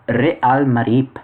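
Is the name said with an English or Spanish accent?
Spanish. The name is said with a Spanish accent. "that was my Spanish accent coming out there"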